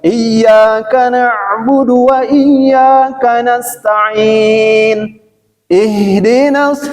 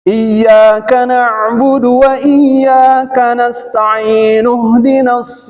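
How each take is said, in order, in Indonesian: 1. Ada jeda sebelum ihdinas, dengan i yang hidup. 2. Ihdinas langsung bersambung, i-nya dihilangkan. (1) "Kalau diputus" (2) "coba kita sambung"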